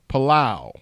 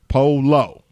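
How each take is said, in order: First: The name sounds like 'Palau'. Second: The name sounds like 'polo'. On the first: The speaker calls it wrong. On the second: The speaker calls it right. "You're right. Polo"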